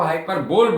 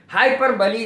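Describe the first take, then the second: First: The word ends with a 'bowl' sound. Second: The word ends with a 'lee' sound. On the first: The speaker calls it wrong. "हम जनरली जो बोलते हैं" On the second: The speaker calls it right. "इसका सही उच्चारण है"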